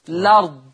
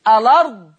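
First: The word begins directly with the L sound. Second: The word begins with a vowel before the L. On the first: "حذف همز الوصل" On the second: "يأثبت همزة الوصل"

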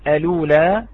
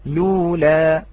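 First: The word starts with a glottal stop before L. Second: The word starts directly with an L sound. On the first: The original spelling with the hamza is kept. "إذا أثبتنا الهمزة على الأصل وعلى الرسم نقول الأولى" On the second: The added hamza is dropped because the L now has a vowel. "إذا لم نأتي بهذه الهمزة ... فنقول لولا"

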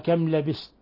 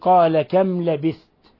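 First: The verb's middle consonant is an s sound. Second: The verb's middle consonant is a th sound. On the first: The speaker calls it wrong. "قلبه الثاء سينا" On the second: The speaker calls it right. "كما في قوله"

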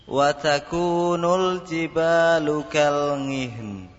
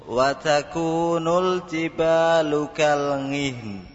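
No difference in how they are said.

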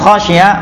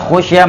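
First: The first vowel is an 'a' sound. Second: The first vowel is an 'u' sound. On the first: He himself feared the grave would become a place of worship. "Kalau dibaca dengan khashya" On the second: Others feared the grave would become a place of worship. "kalau dibaca khushya"

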